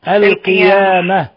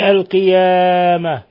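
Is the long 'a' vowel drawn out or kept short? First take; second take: short; drawn out. First: The long vowel is held for a normal length. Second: The long vowel is stretched out far too long. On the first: The speaker calls it right. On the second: The speaker calls it wrong.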